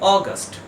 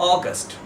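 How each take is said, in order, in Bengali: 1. প্রথম স্বরধ্বনিটি একটি গোলাকার 'aw' ধ্বনি। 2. প্রথম স্বরধ্বনিটি একটি গোলাকার 'aw' ধ্বনি।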